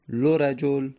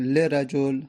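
First: The L is followed by a u vowel. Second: The L is followed by an i vowel. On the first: "دمه" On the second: "کسره"

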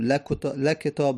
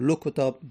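First: The L is followed by an a vowel. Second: The L is followed by a u vowel. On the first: "فتحه" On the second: "دمه"

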